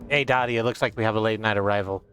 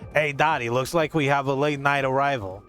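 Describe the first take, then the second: First: It is read in the speaker's ordinary voice. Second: It is read in a put-on character voice.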